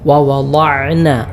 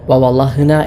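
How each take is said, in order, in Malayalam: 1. തൊണ്ടയിൽ നിന്നുള്ള ain ശബ്ദം 'na'ക്ക് മുമ്പ് വരുന്നു. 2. ശ്വാസം കലർന്ന h ശബ്ദം 'na'ക്ക് മുമ്പ് വരുന്നു. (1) "ഐൻ പ്രത്യേകം ശ്രദ്ധിക്കണം, ഐനായി തന്നെ ഉച്ചരിക്കണം" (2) "ഹ ആയിട്ടോ"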